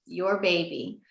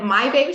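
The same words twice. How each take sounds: First: Soft, settled statement stressing Your; retold quiet assurance, falling after Your; gentle confirmation. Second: MY lifted as a surprised question; retold astonished question on My baby; questioning disbelief. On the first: Grandmother confirms whose baby. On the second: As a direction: ask it with wonder, stressing My. Disbelieving question, then confirmation.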